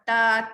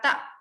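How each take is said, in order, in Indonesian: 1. Suku kata berakhir terbuka tanpa hentian glotal. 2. Suku kata berakhir dengan hentian glotal yang tajam.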